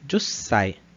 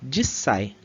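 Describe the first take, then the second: First: The first vowel sounds like u. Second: The first vowel sounds like i. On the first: This is the reading used in the lesson. "Mas aqui a gente vai usar a leitura Jussai" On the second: Some regions or people say it this way. "Eles eliminam até mesmo esse U aqui no meio"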